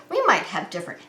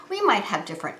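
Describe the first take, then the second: No difference in how they are said.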